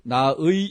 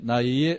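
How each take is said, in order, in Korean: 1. 두 번째 모음은 또렷한 '의'예요. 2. 두 번째 모음은 흐릿해서 '의'와 '애' 사이예요. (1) "나의 이렇게 확실하게 발음하기보다는" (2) "의와 애의, 애의 한 중간 정도"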